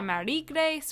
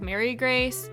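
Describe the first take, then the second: First: The first name has a French pronunciation. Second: The first name has an English pronunciation.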